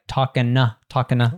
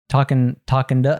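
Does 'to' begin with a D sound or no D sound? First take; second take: no D; D sound. First: The D is dropped, leaving an N sound. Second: The 'to' starts with a soft D sound. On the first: "You could even drop the D sound" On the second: "Becomes a duh"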